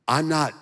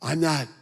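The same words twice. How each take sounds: The two takes are said the same way.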